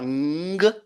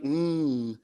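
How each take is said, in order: First: A hard g sound is released after the nasal. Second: Only a nasal hum is heard, no g. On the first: The speaker calls it wrong. "On ne dira pas ng" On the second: The speaker calls it right. "mais on va dire mm"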